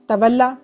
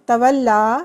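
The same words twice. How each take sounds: First: The final vowel is kept short. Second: The final vowel is drawn out long. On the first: It is the command form. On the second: It is the past tense form.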